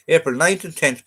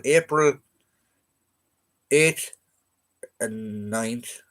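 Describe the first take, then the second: First: "ninth" stressed, raised and louder; correcting stress. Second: Said in the usual way. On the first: Real, not acted. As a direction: correct the date, hitting "ninth". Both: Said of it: "Sorry, yeah".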